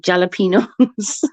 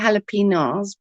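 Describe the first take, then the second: First: The word begins with a J sound. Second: The word begins with an H sound. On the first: "I always put the J in there" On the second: "I'm supposed to say jalapenos"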